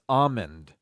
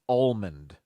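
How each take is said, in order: First: The L sound is left out. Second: The L sound is clearly pronounced. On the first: The speaker calls it right. "almond without the L" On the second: The speaker calls it wrong. "The incorrect way to say this is almond"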